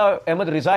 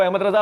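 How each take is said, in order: First: Ahmad رضا said slowly as "Ahmad Riza"; corrected Riza. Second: Ahmad رضا said "Ahmad Raza"; uncorrected Raza. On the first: Confirming the right name, slow رضا said "Riza". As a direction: draw out رضا with an i in the first syllable. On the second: Recalling his earlier correction, رضا said "Raza". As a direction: say رضا with an a in the first syllable. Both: Shown as a demonstration. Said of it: "Ahmad رضا ہی ہوگا".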